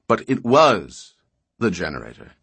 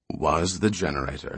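First: Was slowed and louder, falling; stress on was. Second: Said in the usual way. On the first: A narrator's reading. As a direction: lean hard on was. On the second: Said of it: "was the generator," nodded Barr".

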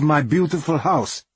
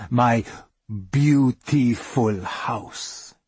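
First: Half-joking, higher-pitched grumble; half-joking complaint. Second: Slow, deliberate mock-singer delivery. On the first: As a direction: complain in mock outrage, at normal speed. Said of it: "she knows I'm a little bit joking". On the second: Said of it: "I say it like talking heads say it". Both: A narrator's reading.

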